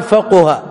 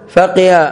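First: فقه pronounced "faquha"; damma on the qaf. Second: فقه pronounced "faqiha"; kasra on the qaf. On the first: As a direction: give فقه a u-vowel after qaf. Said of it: "أنها بالضم". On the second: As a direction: give فقه an i-vowel after qaf. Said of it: "إذا كانت بالكسر". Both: Shown as a demonstration.

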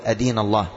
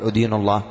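First: أدين said "adīnu", opening on "a"; short a-vowel starting أدين; correct fatha form. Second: أدين said "udīnu", opening on "u"; short u-vowel starting أدين; wrong damma form. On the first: Teacher modelling the right reading, أدين as "adīnu". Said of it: "وبالفتح هو الصواب". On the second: Teacher showing what not to say, أدين as "udīnu". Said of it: "بالضم، خطأ". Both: Shown as a demonstration.

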